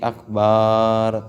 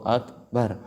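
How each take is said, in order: First: The vowel after the b is drawn out long. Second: The b and its vowel are both kept short. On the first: The speaker calls it wrong. "nggak boleh dipanjangin ba'nya seperti akbar" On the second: The speaker calls it right. "Ya harus Allahu akbar"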